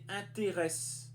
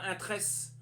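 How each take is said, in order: First: The first e after 'in' is clearly pronounced. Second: The first e after 'in' is dropped. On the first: The speaker calls it right. "c'est intéresse" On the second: The speaker calls it wrong. "C'est pas intresse"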